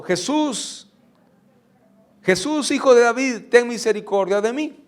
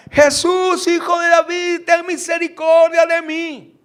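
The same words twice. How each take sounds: First: Calling out to Jesus, higher; a raised begging call; dar voces. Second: High, loud pleading cry; desperate shout. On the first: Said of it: "Algo así como". (gritando a Jesús con voz más alta) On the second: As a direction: cry out to Jesus with all your strength. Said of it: "empezaba a gritar más fuerte". (el ciego grita a Jesús, un clamor alto y fuerte) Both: Retold or imitated.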